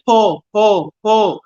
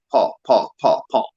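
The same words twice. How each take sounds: First: Put-on high, louder child calling Paul; son's high call, copying Creaney; child's Paul. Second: Said in the usual way. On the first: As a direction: pitch it up like a toddler calling. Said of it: "he'd say the exact same way Creaney said it". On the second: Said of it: "He always calls me Paul".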